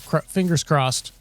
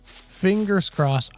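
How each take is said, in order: First: Said in the usual way. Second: Slow and higher, stretching out "Fingers crossed"; drawn-out fingers crossed. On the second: Shown as a demonstration. Gamer hoping the quad is still there, slow higher "Fingers crossed". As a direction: draw out "Fingers crossed" slowly on a higher pitch.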